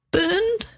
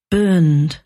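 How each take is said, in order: First: Very high, thin questioning bleat; falsetto bleat. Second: Said in the usual way. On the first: A narrator's reading. Agent hears the only manuscript has been burned, bleating in falsetto. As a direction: squeak it up into falsetto in disbelief. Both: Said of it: "Robert bleated in falsetto".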